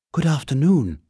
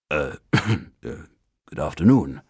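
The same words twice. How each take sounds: First: High, polite little bear; a small bear greeting politely, higher; small clear voice. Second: Lower, hesitant throat-clearing reply; unsure man answering a bear; doubtful. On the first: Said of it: "it said in a small, clear voice". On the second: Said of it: "replied Mister Brown doubtfully". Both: A narrator's reading.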